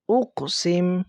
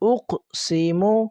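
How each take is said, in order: First: The word ends with a bare consonant. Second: The word ends with a short vowel.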